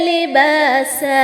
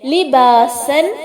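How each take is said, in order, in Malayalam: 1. ഈ വാക്ക് ദീർഘ a സ്വരത്തിലാണ് അവസാനിക്കുന്നത്. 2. ഈ വാക്ക് n ശബ്ദത്തിലാണ് അവസാനിക്കുന്നത്. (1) "ഫത്ഹ അലിഫ് മദ് നൽകിക്കൊണ്ട് രണ്ട് ഹറക്കത്തിന്റെ ദൈർഘ്യം നൽകിക്കൊണ്ടാണ് വഖഫ് ചെയ്യേണ്ടത്" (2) "തൻവീൻ ബിൽ ഫത്ഹയാണ്"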